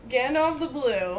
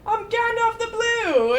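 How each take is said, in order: First: Gandalf the Blue said in the usual voice through a laugh; amused echo of the silly name; laughing repeat. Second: Gandalf the Blue said higher and louder, like a proud title; a hammed-up wizard proclaiming his name; mock grand announcement. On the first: Real, not acted. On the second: Gandalf announced by the costumed man.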